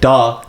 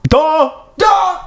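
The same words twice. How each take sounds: First: Said in the usual way. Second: Very high, squealed DUH; mock dim-witted jeer. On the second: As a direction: squeak "Duh" in silly falsetto. Clowning repeat of the jeer.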